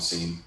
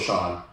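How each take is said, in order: First: The name begins with 's' and has an 'ee' vowel. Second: The name begins with 'sh' and has an 'aw' vowel. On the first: "we call him Scene um, because S E A N. It's just the correct way to say it" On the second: "his name is uh, also Sean"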